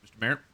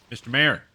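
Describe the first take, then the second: First: Said in the usual way. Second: Calling Mister Mayor! louder across the room. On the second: Real, not acted. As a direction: shout Mister Mayor! after him as he walks off. Calling the mayor who leaves.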